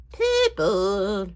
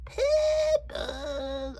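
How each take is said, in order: First: Loud, drawn-out silly take on one word; strange made-up voice. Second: Very high, long drawn-out silly voice; strange squeaky voice. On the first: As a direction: stretch the word in a goofy voice. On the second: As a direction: squeal the word slowly in a made-up voice. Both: Pretend. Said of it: "makes up strange voices to say words".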